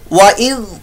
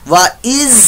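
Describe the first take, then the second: First: It ends with a soft 'th' sound. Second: It ends with a buzzing 'z' sound. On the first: The speaker calls it right. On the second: The speaker calls it wrong.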